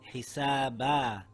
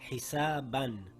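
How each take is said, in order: First: The word ends on a long a vowel. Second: The word ends with an -an sound. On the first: The reading stops on this word. "Now we read it as hisaba and not hisaban" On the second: The reading continues without stopping. "The word reads hisaban"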